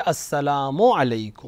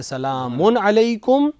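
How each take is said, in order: First: "السلام علیکم" as "assalaamu alaikum"; careful u ending on "السلام"; article without tanween. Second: Slow "سلام علیکم" as "salaamun alaikum"; deliberate "سلام" with no "as", ending in n; tanween without article. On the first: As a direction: stress the "as" in "السلام", no n at the end. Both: Shown as a demonstration. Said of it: "الف لام کے بعد تنوین نہیں آ سکتی".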